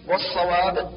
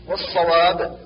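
Both takes have the same delivery.

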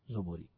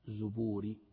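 First: The first vowel is an open 'a' sound. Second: The first vowel is a rounded 'u' sound. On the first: The speaker calls it wrong. "نطقتها الزبوري كذا" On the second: The speaker calls it right. "لا زبوري بالضم"

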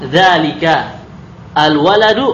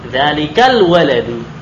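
First: The words are separated with a glottal break. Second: The words are joined without a glottal break. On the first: The speaker calls it wrong. "ah ini enggak bagus" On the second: The speaker calls it right. "maka kita sambung bacanya"

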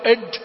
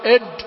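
First: The j is overdone and sounds like d. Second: The j is overdone and sounds like d.

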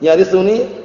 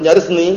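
First: A short u vowel comes before the final -ni. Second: No vowel comes before the final -ni. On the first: The verb describes the heir as a quality. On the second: The verb is the result of the request. "Kalau dibaca dengan yarisuni misalkan"

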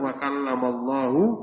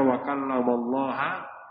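First: Allah ends with a u vowel. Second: Allah ends with an a vowel. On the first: God spoke to Moses. The speaker calls it right. "Tadi yang benar wa kallamallahu" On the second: Moses spoke to God. The speaker calls it wrong. "kemudian dibaca wa kallamallaha"

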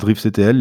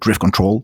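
First: The second word is spelled out as letters. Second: The second word is said as control. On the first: This is how French speakers say it. "En français, on dit plutôt, j'ai l'impression" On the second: This is how English speakers say it. "en anglais, les gens ont plutôt l'air de dire"

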